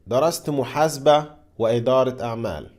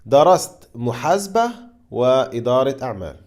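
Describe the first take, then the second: First: The sentence is said at a faster pace. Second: The sentence is said at a slower pace.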